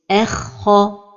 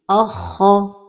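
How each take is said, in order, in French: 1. Le kha se prononce fin, pas lourd. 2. Le hamza initial se prononce aussi lourd. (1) "L'erreur est de l'amincir comme ceci" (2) "Une autre erreur est d'emphatiser al-hamza comme ceci"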